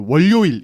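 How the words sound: It is said with a Gyeongsang regional melody. The speaker calls it wrong. "이렇게 예, 하는 게 있어요"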